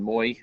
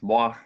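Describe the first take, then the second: First: It is read with an English-style pronunciation. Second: It is read with a French-style pronunciation. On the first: The speaker calls it wrong. "rather than moi" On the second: The speaker calls it right. "that's pronounced moi"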